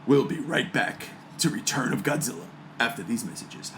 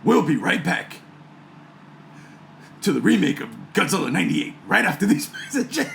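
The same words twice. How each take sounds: First: Low, soft movie trailer announcer; deep-voiced trailer guy teasing a commercial break. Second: Lightly voiced trailer announcer, breaking into a laugh; a hint of trailer voice; movie voice. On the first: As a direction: drop into the epic trailer voice. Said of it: "Let me get my movie voice on". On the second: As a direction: announce the break, cracking up near the end. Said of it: "got another one". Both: Shown as a demonstration.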